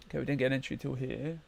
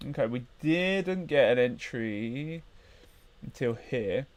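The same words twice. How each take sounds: First: Said in the usual way. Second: Slow, thinking it through; slow and drawn out. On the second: Real, not acted. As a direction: stretch each word.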